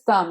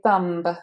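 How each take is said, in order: First: The word ends in an M with no B. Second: The word ends with an audible B sound. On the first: The speaker calls it right. "It's the same as thumb" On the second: The speaker calls it wrong. "You don't want to say thumb"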